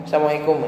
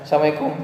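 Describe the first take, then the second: No difference in how they are said.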